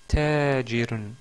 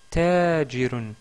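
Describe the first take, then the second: The two takes are said the same way.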